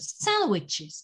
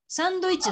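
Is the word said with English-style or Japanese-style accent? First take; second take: English-style; Japanese-style. First: It is said with English word stress. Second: It is said with Japanese katakana-style accent. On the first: The speaker calls it right. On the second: The speaker calls it wrong.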